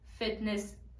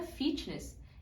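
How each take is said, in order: First: The first vowel is an 'eh'-like sound. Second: The first vowel is a clear 'ee' sound. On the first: The speaker calls it right. "essas palavras têm o som de E" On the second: The speaker calls it wrong. "tudo isso é falado com som de I"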